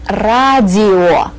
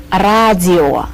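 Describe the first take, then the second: No difference in how they are said.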